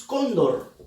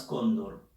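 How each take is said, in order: First: Said in the usual way. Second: Cóndor said lower, first syllable leaned on; stress on CÓN. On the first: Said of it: "Bien, seguimos". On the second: Shown as a demonstration. Teacher showing the stress on cóndor to students. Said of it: "Tiene dos sílabas".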